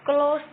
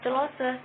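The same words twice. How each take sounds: First: The word has its normal English pronunciation. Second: The word is read out as it is spelled. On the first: The speaker calls it right. "tapi close the door" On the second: The speaker calls it wrong. "Bukan dibaca close"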